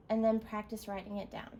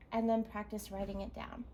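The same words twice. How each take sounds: The two takes are said the same way.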